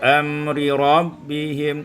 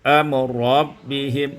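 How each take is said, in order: First: The first r keeps its vowel before rabbihim. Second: The first r merges into a doubled r.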